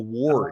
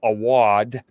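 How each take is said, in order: First: It is said with a clear R sound. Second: It is said without an R sound. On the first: "with an R in it" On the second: "she said it with a New England U S A accent"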